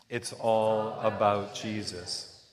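It is said with strong, believing conviction.

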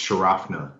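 It is said with an English accent. "if you're saying it with like an English accent"

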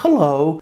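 The greeting sounds soft and friendly. It is a relaxed, less formal greeting.

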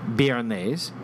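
It is said with a French-style pronunciation.

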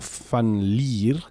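The surname is pronounced with Dutch sounds. This is how it is said in the Netherlands or Belgium. "I'm sure they say van der Leer or van der Leer there"

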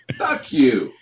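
It is said with a hostile, sneering inflection. It secretly insults the new station owners. "That's what it sounds like. It's just all in the inflection"

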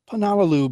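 It sounds sure, like a statement. The speaker commits to this pronunciation. "I'll say it with confidence"

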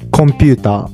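It is said in a Japanese English accent.

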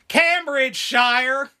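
The name is said with an American pronunciation.

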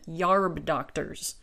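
The first word is said as regional 'yarb'.

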